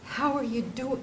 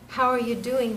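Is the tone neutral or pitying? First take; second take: pitying; neutral. First: It is asked in a pitying, worried tone. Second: It is asked in a plain, neutral tone.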